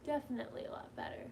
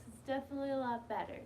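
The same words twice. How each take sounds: First: Fast, whispered aside to herself; whispering it again quietly; whispered repeat. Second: Said in the usual way. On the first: Real, not acted. Telling viewers she feels better, a quick whisper.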